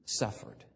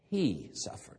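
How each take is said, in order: First: Barely voiced whisper of suffered. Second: He suffered. with the weight on He, falling; stress on he. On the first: Preacher whispers suffered. to the congregation, hushed. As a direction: breathe the word suffered. almost without voice. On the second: Preacher repeats He suffered. to the congregation, stressing He. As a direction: lean into He, let suffered. drop. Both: Shown as a demonstration.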